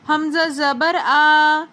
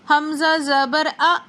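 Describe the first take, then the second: First: The final vowel is stretched out long. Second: The final vowel is cut off with a jolt. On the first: "Hamza की ज़बर को ना ही खींचना है, ... ऐसा हमने बिल्कुल भी नहीं पढ़ना" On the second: "हमज़ा को झटका देकर पढ़ना है, ... ये भी गलत हो जाएगा"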